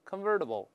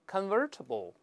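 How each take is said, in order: First: The t is softened into a d sound. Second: The t is said as a clear t.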